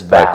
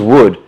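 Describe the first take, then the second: First: The name starts with a v sound. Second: The name starts with a w sound. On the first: This is how the player himself says the name. The speaker calls it right. "But it's Val" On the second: This is how people assumed the name was said. The speaker calls it wrong. "We always thought it was Wood"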